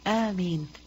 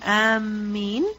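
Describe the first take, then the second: First: The first vowel is long, the m single. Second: The m sound is doubled and held longer. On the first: It is the word said after the prayer. The speaker calls it right. "Alif has a mad on it. Meme has no shadda" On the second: It means those who are intending. The speaker calls it wrong. "If you put a shadda on the meme"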